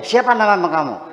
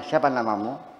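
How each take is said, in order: First: It is asked with a marked, different expression. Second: It is asked as a plain, neutral question. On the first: The same question carries a different meaning. "Dengan mimik yang berbeda" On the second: It is an ordinary request for a name. "Bisa kita artikan pertanyaan biasa"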